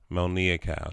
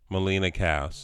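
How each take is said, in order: First: The first name sounds like Mel-nee-a. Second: The first name sounds like Me-lee-na. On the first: This is the proper pronunciation. The speaker calls it right. "It's Melnia" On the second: This is the common mispronunciation. The speaker calls it wrong. "That's like people say Melina"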